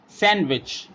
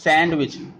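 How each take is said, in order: First: The d sound is left out completely. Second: The d sound is pronounced in the middle. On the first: The speaker calls it right. "D is a silent here. We read it sandwich" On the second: The speaker calls it wrong. "We do not use sandwich"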